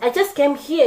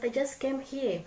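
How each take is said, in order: First: It is said in a rude, dismissive tone. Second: It is said in a calm, polite tone. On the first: The speaker does not control their tone. The speaker calls it wrong. "someone who does not pay attention to my tone" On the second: The speaker controls their tone. The speaker calls it right. "who pay attention to my tone"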